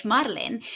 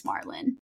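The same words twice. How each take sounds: First: "Marlene" said the Spanish way; Spanish pronunciation. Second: "Marlon" said the anglicized way; English pronunciation. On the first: Podcast host giving her original name, Spanish pronunciation of "Marlene". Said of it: "which is in Spanish". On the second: Host giving up on explaining her name, English pronunciation of "Marlon". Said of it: "do the English version". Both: Shown as a demonstration.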